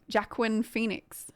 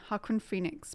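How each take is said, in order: First: The first name starts with a J sound. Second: The first name starts with an H sound. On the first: The speaker calls it wrong. "which I might be saying wrong" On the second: The speaker calls it right. "Jay's silent"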